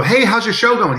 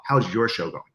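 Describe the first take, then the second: First: High, bright hello to a friend at a con; cheery fan greeting. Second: Turning the question back. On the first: Fan greeting Phil at a convention, cheery and high. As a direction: greet him like an eager fan. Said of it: "he will always say this to you". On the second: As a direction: toss it back at them gently. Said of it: "He's gonna like". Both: Retold or imitated.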